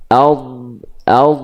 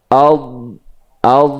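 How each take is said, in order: The two takes are said the same way.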